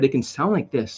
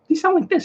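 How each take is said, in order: First: It is said in a normal, natural voice. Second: It is said in a very high voice.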